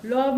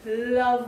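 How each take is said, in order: First: लव said with rounded "aw", as "lawv"; wrong vowel. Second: लव said with short "uh", as "luv"; careful "luv" for लव; correct short vowel. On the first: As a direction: mistaken लव, vowel rounded toward "o". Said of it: "लव नहीं बोलेंगे". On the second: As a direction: model लव with an unrounded "uh". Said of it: "लव बोलेंगे". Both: Shown as a demonstration.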